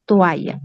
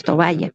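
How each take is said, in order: First: "toalla" as to-a-ya, no b sound; standard toalla. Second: "toalla" with an intrusive b, to-ba-ya; nonstandard tovalla. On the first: Teacher correcting to the formal word, "toalla" pronounced to-a-ya. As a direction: go straight from o to a in "toalla". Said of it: "decimos toalla". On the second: Teacher showing what not to say, "toalla" pronounced tobaya. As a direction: add a b between o and a in "toalla". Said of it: "No decimos toalla". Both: Shown as a demonstration.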